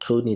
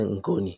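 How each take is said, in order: First: The word begins with a click sound. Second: The word begins with a plain ng sound. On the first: "instead of saying Koni" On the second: Speakers unable to pronounce clicks said it this way. "that ethnicity couldn't pronounce clicks"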